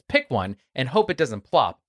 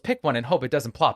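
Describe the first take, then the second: First: It is said at a normal speaking pace. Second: It is said very quickly.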